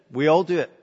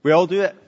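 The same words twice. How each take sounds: First: "all" stressed and lighter; weight on "all" in "We all do it". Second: "do" hit, louder; stress on do. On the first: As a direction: calmer take stressing "all". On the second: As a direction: lean on "do" in "We all do it". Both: Acted.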